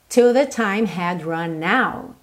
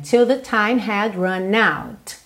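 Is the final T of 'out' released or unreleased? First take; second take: unreleased; released. First: The final T of 'out' is not released. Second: The final T of 'out' is clearly released. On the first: "Eu também não marquei o T do out" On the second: "eu posso dar uma marcadinha"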